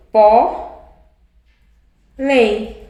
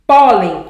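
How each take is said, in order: First: "Pó, lem" as two syllables with a clear pause. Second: Said in the usual way. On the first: Shown as a demonstration. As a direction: punch "Pó", wait, then say "lem". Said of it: "A sílaba mais forte é a penúltima". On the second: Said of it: "a mesma coisa".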